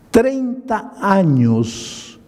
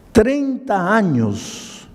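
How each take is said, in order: First: "treinta años" drawn out slowly and higher, "treinta" long; slow emphatic stretch. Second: "Treinta años" again drawn out slowly, higher, falling at the end; slow emphatic repeat. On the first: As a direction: dwell on "treinta", each syllable slow. ("treinta años" estirado, lento y más agudo) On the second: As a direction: let "Treinta" ring slow then fall. ("Treinta años" lento, más agudo y cayendo al final) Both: Retold or imitated.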